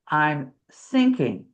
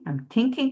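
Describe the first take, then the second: First: The word starts with a hissing s sound. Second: The word starts with a soft th sound. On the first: The speaker calls it wrong. "or I'm sinking with an S" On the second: The speaker calls it right. "it'd be thinking"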